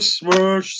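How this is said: It is said with only mild anger.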